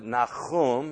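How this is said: The name is pronounced the Hebrew way. "that's how his name is pronounced in Hebrew"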